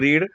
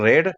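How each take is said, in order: First: The vowel is a long 'ee' sound. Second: The vowel is a short 'eh' sound. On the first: It is the present form of the verb. "पहिलं रूप रीड" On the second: It is the past form of the verb. "दुसरं रेड"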